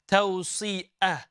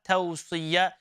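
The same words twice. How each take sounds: First: The middle consonant is a glottal stop. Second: The middle consonant is a y sound. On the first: The speaker calls it wrong. "Tawsiyah is hamza" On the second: The speaker calls it right. "Tawsiyah is the letter ya"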